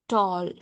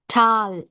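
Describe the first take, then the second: First: The vowel is a rounded 'aw' sound. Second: The vowel is an open 'ah' sound. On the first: The speaker calls it right. "O. This is how the representation of sound O" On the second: The speaker calls it wrong. "Generally, we say ah, ah, tall, ah. It's wrong"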